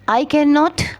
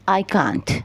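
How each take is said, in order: First: Every word is said in full. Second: The words are shortened into one contraction. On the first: "आई कैन नॉट की जगह" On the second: "हमने कहा"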